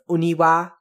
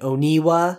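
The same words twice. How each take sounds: First: The final vowel is a full, clear 'a'. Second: The final vowel is reduced to a schwa. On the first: The speaker calls it right. "make sure with this name that you are pronouncing the wa at the end of oniwa" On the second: The speaker calls it wrong. "not saying oniwa"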